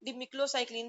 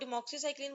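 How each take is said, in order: First: The middle part sounds like 'clo'. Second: The middle part sounds like 'mox'. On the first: This way follows the written spelling. "वैसे डिम डिमिक्लोसाइक्लिन भी इसको कह सकते हैं" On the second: This is the speaker's usual way of saying it. "मैं वैसे इसको यही पढ़ती हूँ"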